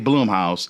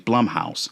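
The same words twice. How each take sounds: First: The first syllable rhymes with 'bloom'. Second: The first syllable rhymes with 'plum'. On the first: The speaker calls it wrong. "I used to always say Blumhouse" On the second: The speaker calls it right. "that is actually Blumhouse"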